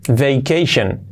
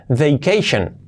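No difference in how they are said.

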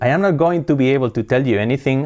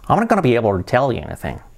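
First: Every word is said fully and separately. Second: Words are reduced and linked together quickly. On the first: "pasamos del I am not going to be able to tell you anything" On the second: "hablan rápido, sí. Se comen letras"

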